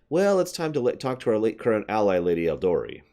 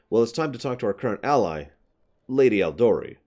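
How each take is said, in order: First: It runs on without a deliberate pause. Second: It has a deliberate pause within the sentence. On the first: The speaker calls it wrong. "That sentence was said as" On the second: The speaker calls it right. "Like a deliberate pause there to indicate uh, focus of uh, uh, subject"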